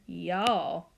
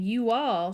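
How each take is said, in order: First: It is said in a Southern accent. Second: It is said in a standard accent.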